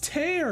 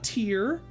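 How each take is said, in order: First: The vowel sounds like the one in care. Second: The vowel sounds like the one in here. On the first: A rip, like a tear in reality. The speaker calls it right. "Tear in reality" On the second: A drop from crying. The speaker calls it wrong. "not Tear"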